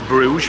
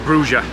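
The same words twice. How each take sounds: First: The name has an English pronunciation. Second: The name has a local Dutch pronunciation. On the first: This is how English speakers say it. "we pronounce it as Bruges" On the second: This is how locals say it. "here it's called Bruges"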